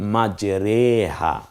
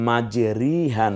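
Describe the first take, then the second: First: The vowel after the r sounds like 'e'. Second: The vowel after the r sounds like 'i'. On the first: The speaker calls it right. "পড়তে হবে মাজরেহা" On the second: The speaker calls it wrong. "মাজরিহা না পড়ে"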